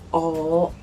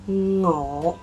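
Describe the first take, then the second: First: The word starts directly with the vowel. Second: The word starts with a heavy nasal ng sound. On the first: "if you drop the sound at all" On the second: "with a heavier nasal sound"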